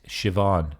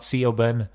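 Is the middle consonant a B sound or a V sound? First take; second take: V; B. First: The middle consonant is a V sound. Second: The middle consonant is a B sound. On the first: The speaker calls it right. "It's Siobhan, alright? That's how it's pronounced. B is kind of like a V sound in Irish" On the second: The speaker calls it wrong. "Not Siobhan"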